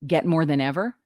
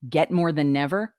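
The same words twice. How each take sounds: First: "than ever" with the words kept apart; clear diction. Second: "than never" run together, the n carried over; words strung together. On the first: Coach showing correct diction, "than ever" separated. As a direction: start "ever" cleanly on its vowel. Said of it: "you're reading things correctly". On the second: Coach showing careless diction, "than never" strung together. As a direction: slur "than never" into one unit. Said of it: "not stringing words together". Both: Shown as a demonstration.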